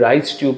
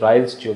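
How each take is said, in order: First: The first word sounds like rice, without an L. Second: The first word has an L before the s. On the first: It sounds as if rice goes through the tube. The speaker calls it wrong. "আমরা উচ্চারণে ভুল করি" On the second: The tube is named after a person. The speaker calls it right. "Y এল E অ্যাপোস্ট্রোফি S"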